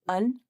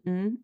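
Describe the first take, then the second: First: It is a weak vowel followed by n. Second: It is only an n sound, no vowel. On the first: "often reduced to just un" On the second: "or maybe just the N sound"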